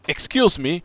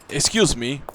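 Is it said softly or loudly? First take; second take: loudly; softly. First: It is said loudly. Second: It is said softly.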